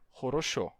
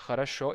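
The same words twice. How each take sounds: First: The unstressed vowels keep a full 'o' sound. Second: The unstressed vowels are reduced to 'a' sounds. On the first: This is how some Russian accents say it. "e sim" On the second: This is how most Russian accents say it. "não se pronuncia"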